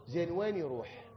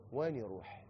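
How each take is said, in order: First: Said in the usual way. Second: Softer, quiet repeat of وين يروح; soft echo. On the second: Shown as a demonstration. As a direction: let وين يروح fall away hushed. (وين يروح بصوت خافت)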